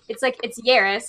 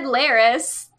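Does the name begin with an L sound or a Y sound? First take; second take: Y sound; L sound. First: The name begins with a Y sound. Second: The name begins with an L sound. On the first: This is the technically correct Puerto Rican pronunciation. "So it's technically pronounced. ... It's Yaris" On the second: This is the easier version the family uses. "But we've always just said Laris"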